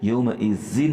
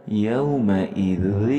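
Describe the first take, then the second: First: Said in the usual way. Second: یومئذ drawn out slowly and gently; softly drawn out. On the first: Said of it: "یوں نہیں پڑھنا". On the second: Shown as a demonstration. Teacher showing the right soft way, slowly drawn. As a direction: ease slowly through یومئذ, soft vowels. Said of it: "بالکل نرمی سے ادا کرنا ہے".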